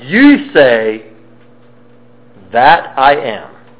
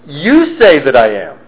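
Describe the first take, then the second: First: The stress falls on the word am. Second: The stress falls on the word you. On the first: The speaker affirms that the claim is true. The speaker calls it right. "that's what I am" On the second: The claim is the other person's, not the speaker's. The speaker calls it wrong. "You're saying that I am. I didn't say that, you're saying that"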